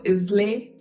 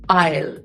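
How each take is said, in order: First: The word is said with two syllables. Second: The word is said with one syllable. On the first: The speaker calls it wrong. "You might be pronouncing this word as" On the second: The speaker calls it right. "This word is pronounced as Isle"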